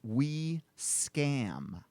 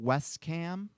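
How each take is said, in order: First: The name is said as we plus scam. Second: The name is said as west plus cam. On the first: The name hides a message about deception. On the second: It is the company's ordinary name.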